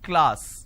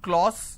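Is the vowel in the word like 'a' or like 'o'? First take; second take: a; o. First: The vowel sounds like an 'a'. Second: The vowel sounds like an 'o'. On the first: The speaker calls it right. "it's class" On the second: The speaker calls it wrong. "they make it O, class"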